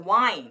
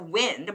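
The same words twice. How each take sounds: First: It is said with the verb pronunciation. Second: It is said with the noun pronunciation. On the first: It is the verb form. "but it's a verb" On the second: It is the noun form. "If it's a noun"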